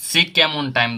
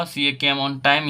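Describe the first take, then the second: First: Said in the usual way. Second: Slow, word by word, like dictating to a class; slow dictation. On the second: Shown as a demonstration. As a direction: spell the sentence out slowly for students. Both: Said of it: "दोस्तों यहाँ बताइए यहाँ पे क्या होगा".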